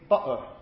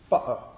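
First: The middle consonant is a glottal stop. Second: The middle consonant is a glottal stop.

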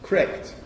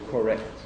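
First: The first syllable's vowel is dropped. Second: The first syllable's vowel is fully pronounced. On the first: The speaker calls it right. "Or correct" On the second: The speaker calls it wrong. "rather than correct"

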